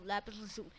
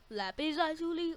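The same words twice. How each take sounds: First: "lazuli" as luh-ZOO-lee; second option. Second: "lazuli" as LAH-zoo-lee; open, stressed LAH in "lazuli"; first option. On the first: Viewer asking which is right, offering "lazuli" as luh-ZOO-lee. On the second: Viewer asking which is right, offering "lazuli" as LAH-zoo-lee. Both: Shown as a demonstration. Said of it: "what is the pronunciation".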